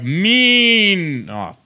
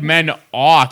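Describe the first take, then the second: First: The stress is on the first syllable. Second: The stress is on the second syllable. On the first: "you accentuated the syllable with an E" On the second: "Instead of the one with the O"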